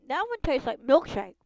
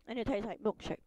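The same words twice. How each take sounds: First: Loud, delighted verdict; excited. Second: Said in the usual way. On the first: Real, not acted. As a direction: rave about the taste.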